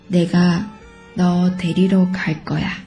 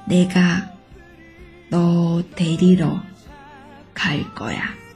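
First: It is spoken at a normal, faster pace. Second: It is spoken slowly and carefully. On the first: "正常速度" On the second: "那我们慢速再跟读一遍。"

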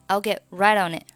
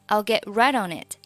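First: The final t of 'it' is dropped. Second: The final t of 'it' is pronounced. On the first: "都可以" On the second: "注意it 末尾的t 你可以读也可以不读啊"

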